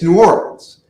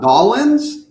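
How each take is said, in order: First: The city name is said the outsider's way. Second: The city name is squeezed into a short form. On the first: The speaker calls it right. "If you're not, it's New Orleans" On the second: The speaker calls it wrong. "It's not Nolans"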